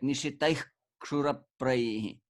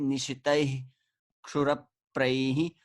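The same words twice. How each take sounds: First: A rough guttural h comes before the k. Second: The final h before the k is silent. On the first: "it basically sounds like a very rough guttural ha sound" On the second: "you can either release it like silently"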